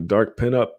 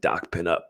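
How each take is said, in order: First: It is said in a plain American accent. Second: It is said in an Australian accent.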